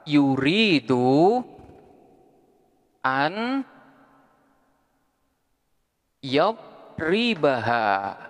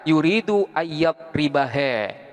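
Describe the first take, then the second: First: The final vowel is an open 'a' sound. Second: The final vowel is leaned toward an 'e' sound.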